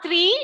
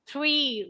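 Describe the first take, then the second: First: The r sound is missing or unclear. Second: The r sound is clearly pronounced. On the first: The speaker calls it wrong. "it is not three" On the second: The speaker calls it right. "it is three. R, three"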